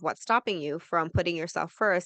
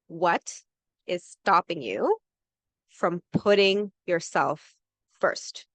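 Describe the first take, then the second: First: It is said at a normal, quick pace. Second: It is said slowly and deliberately.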